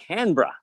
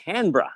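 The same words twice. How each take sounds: First: It is said with syllables swallowed, Australian style. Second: It is said with syllables swallowed, Australian style.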